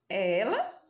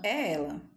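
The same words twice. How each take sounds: First: It is said as a question. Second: It is said as a firm statement.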